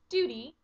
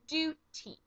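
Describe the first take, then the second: First: The T is softened to sound like a D. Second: The T is pronounced as a crisp, clear T.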